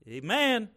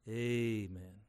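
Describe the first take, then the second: First: The stress is on the second syllable. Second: The stress is on the first syllable.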